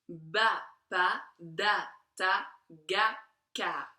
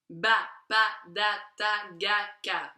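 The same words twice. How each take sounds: First: The syllables are said at a slower pace. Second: The syllables are said at a faster pace.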